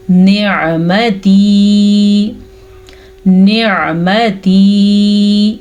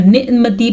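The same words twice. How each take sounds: First: Slowly chanted نعمتی with throat ayn after "ni", long final ee; clear ayn. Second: نعمتی with a glottal catch for ayn; wrong hamza sound. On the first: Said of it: "عین کے مخرج کو واضح کریں". (نعمتی میں عین واضح) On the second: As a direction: replace the ayn of نعمتی with a quick hamza stop. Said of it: "پھر وہ حمزہ بن جائے گا". (نعمتی میں عین کی جگہ ہمزہ) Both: Shown as a demonstration.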